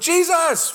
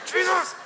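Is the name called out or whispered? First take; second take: called out; whispered. First: The name is called out aloud. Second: The name is said in an angry whisper.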